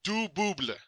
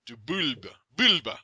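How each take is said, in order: First: "du Bouble" with oo and final -bluh; careful attempt, "Bouble" ending b-l-uh; mispronounced French name. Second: "Bulbe" with l before final b; corrected French name. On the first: Host trying guest's French name, getting "Bouble" wrong. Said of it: "it's not Fu du Bouble". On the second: Host repeating after guest's coaching, careful "Bulbe". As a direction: practise "Du Bulbe", ending l-b-uh. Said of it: "Yeah, that's it". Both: Real, not acted.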